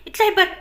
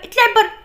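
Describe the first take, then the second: First: Angry order. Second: Higher, much louder yell of "اطلعي بره"; angry shout. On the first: Janna throws Shafa out. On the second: Janna screaming "اطلعي بره" at Shafa. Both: Acted.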